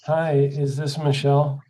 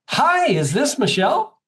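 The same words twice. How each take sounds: First: It is said with flat, low energy. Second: It is said with bright, high energy. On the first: The caller sounds like a depressing downer. The speaker calls it wrong. "Michelle might decide she wants to kill herself" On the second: The caller sounds upbeat and pleasant to talk to. The speaker calls it right. "you want to start with high energy"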